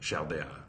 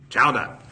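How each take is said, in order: First: It is said with a French accent. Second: It is said with a Boston accent. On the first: "And the Frenchman says" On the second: "And the nephew of Quimby says"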